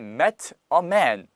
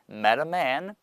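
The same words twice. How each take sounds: First: The t in met is a hard separate t. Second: The t in met is a linked flap. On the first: The speaker calls it wrong. "met a man이 아니고" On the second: The speaker calls it right. "연음이 되면서 르 발음이 날 거니까"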